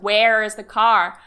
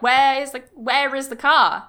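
First: It is said in an American accent. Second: It is said in a non-American accent.

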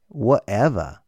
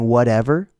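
First: It is said in a British accent, T dropped. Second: It is said in an American accent, T voiced. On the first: The speaker calls it wrong. "an Englishman will say, whatever" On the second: The speaker calls it right. "Do you mean whatever?"

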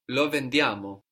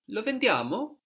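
First: It is said as a falling statement. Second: It is said as a rising question.

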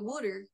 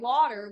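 First: Water is said the Delco way, like wooder. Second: Water is said with a standard pronunciation.

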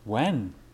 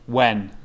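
First: It is said calmly, without urgency. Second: It is said with strong urgency.

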